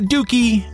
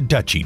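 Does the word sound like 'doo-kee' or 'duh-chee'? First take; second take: doo-kee; duh-chee. First: It is said like 'doo-kee' with a k sound. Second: It is said like 'duh-chee' with a ch sound. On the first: The speaker calls it wrong. "not a dookie" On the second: The speaker calls it right. "The correct pronunciation for a realm ruled by a duke is a duchy"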